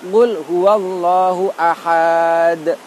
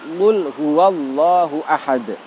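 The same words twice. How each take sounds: First: The vowel before the final d is lengthened. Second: The vowel before the final d is short. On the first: The speaker calls it wrong. "Tidak boleh kita membaca seperti ini" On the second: The speaker calls it right. "Maka wakofnya juga kita baca pendek"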